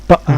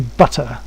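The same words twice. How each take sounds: First: The t is a glottal throat sound. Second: The t is a clear tongue sound. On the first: "We might say butter. ... converted into a, a throat sound rather than uh, a, a tongue sound" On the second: "we don't say butter sometimes"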